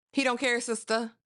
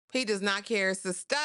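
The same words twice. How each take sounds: First: Said in the usual way. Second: "does not care" spelled out word by word; emphatic restatement. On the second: Real, not acted. Host warns Aurora, "does not care" said with deliberate emphasis.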